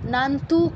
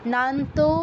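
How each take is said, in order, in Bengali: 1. শব্দটি একটি ছোট 'u' স্বর দিয়ে শেষ হয়। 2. শব্দটি একটি 'o' স্বর দিয়ে শেষ হয়। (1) "কেউ বলবো না" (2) "ওকার আছে"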